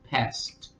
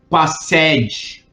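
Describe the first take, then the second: First: The ending is a plain t sound. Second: The final ed is sounded out separately. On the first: The speaker calls it right. "esse ed, você vai ler como um T" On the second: The speaker calls it wrong. "Você não lê passed"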